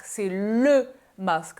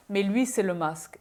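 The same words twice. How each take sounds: First: "le" drawn out and stressed, slow. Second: Said in the usual way. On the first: Shown as a demonstration. Vlogger insisting this is THE mask, stressing le slowly. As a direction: lean hard on "le" in "c'est le masque". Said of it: "c'est pas juste un masque". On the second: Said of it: "c'est pas juste un masque, c'est le masque".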